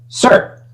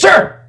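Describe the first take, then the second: First: It is said louder than normal. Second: It is screamed at full volume.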